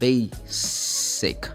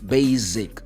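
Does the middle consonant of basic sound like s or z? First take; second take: s; z. First: The middle consonant sounds like an s. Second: The middle consonant sounds like a z. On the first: The speaker calls it right. "this word should be pronounced basic" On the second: The speaker calls it wrong. "this is normally the way Brazilian students say basic. This sounds like z"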